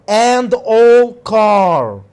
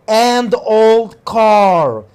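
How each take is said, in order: The two takes are said the same way.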